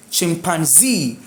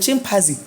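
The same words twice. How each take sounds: First: "chimpanzee" with ZEE raised and drawn out; stress on final ZEE. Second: Quick "chimpanzee" stressed early, ending unstressed; stress off final syllable. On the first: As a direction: hit and hold ZEE in "chimpanzee". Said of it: "do stress the other E E". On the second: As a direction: say "chimpanzee" as CHIM-panzee, quickly. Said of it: "we used to call it". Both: Shown as a demonstration.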